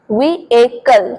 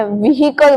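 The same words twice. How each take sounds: First: "व्हीकल" slowly as VEE-ay-kul; correct, no h. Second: "व्हीकल" said as vee-HEE-kul; common mispronunciation. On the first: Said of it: "एच का sound proper नहीं आएगा". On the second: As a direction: sound a clear h in "व्हीकल". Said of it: "बहुत सारे लोग बोलते हैं". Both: Shown as a demonstration.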